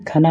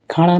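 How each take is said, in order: First: खाना with a plain "na"; dental na. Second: खाना mispronounced as "khaaṇa"; retroflex ṇa. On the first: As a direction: keep the tongue forward on the n of खाना. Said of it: "खाना होता है". (खाना में सीधा "ना" बोलें) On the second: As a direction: curl the tongue on the n of खाना. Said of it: "खाना नहीं". (खाना को गलत ढंग से "खाणा" बोलें) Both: Shown as a demonstration.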